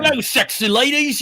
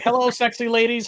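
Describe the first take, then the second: First: It is said in a British accent. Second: It is said without a British accent. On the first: The speaker calls it right. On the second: The speaker calls it wrong.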